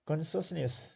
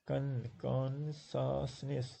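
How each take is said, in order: First: Said in the usual way. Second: "consciousness" very slowly broken into syllables. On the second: Shown as a demonstration. Teacher counting syllables in "consciousness" for students, syllable by syllable. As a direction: draw out every beat of "consciousness". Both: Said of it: "so three".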